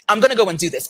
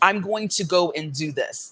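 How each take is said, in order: First: 'Going to' is reduced to 'gonna'. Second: 'Going to' is pronounced fully and carefully. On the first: It sounds conversational and fluid. The speaker calls it right. "we would say, I'm gonna" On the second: It sounds overly articulated. The speaker calls it wrong. "as opposed to"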